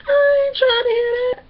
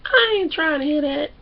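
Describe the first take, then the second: First: High, loud protest held on one pitch; put-on high-pitched objection; imitating Jay. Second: Milder mock protest, starting high then easing down; retold refusal, lightly put on; imitating Jay. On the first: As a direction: shout it high in mock refusal. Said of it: "this is what Jay say". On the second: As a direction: object with a touch of indignation. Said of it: "Jay, Jay".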